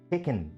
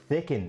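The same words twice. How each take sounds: First: The word begins with a plain t sound. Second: The word begins with a th sound. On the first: "which I don't" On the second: "if you like to use H's in your accent"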